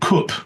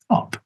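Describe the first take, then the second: First: It has the northern rounded vowel. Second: It has the southern open vowel.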